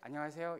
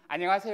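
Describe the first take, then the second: First: It is said plainly, without a smile. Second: It is said with a broad smile.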